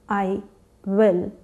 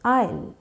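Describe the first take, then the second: First: Said as two full separate words. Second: Said as one short contracted word. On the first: "Instead of I will" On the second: "you say I'll"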